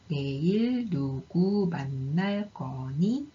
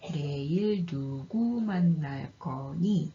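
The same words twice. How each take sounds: First: It has slow, exaggerated yes-no question intonation. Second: It has exaggerated wh-question intonation. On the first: Asks whether you will meet someone tomorrow. "예, 아니요 의문문의 음 높이 곡선입니다. 이 패턴을 설명하기 위해서 천천히 과장해서 발음을 해보면" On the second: Asks who you will meet tomorrow. "의문사 의문문의 음높이 곡선입니다. 이것도 패턴을 과장해서 발음해보면"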